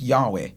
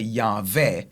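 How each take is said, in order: First: The middle consonant is a W sound. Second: The middle consonant is a V sound.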